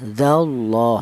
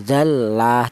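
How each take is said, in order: First: The L in Allah is pronounced heavy and thick. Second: The L in Allah is pronounced light and thin. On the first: The speaker calls it right. "Cara bacanya tafkhim itu seperti ini ya" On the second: The speaker calls it wrong. "Tidak boleh tarkik ya"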